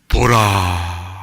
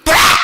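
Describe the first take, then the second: First: It is said quietly and calmly. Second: It is shouted loudly.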